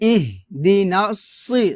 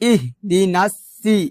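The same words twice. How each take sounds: First: The s sound is heavy and thick. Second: The s sound is light and thin. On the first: The speaker calls it right. "সি সদ মোটা করে বলতে হবে" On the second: The speaker calls it wrong. "সি বলা যাবে না"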